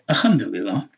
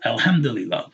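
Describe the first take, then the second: First: The 'l' of 'al' is left out. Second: The 'l' of 'al' is clearly pronounced. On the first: The speaker calls it wrong. "Some people were saying" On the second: The speaker calls it right. "there's a lam, that's Al"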